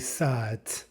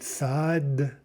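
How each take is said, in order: First: The word ends with a voiceless T sound. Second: The word ends with a voiced D sound. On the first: "but we say sat" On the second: "we write sad"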